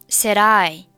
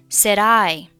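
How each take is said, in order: The two takes are said the same way.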